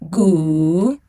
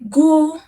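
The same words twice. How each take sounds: First: The pitch dips low, then rises. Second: The pitch stays high and level.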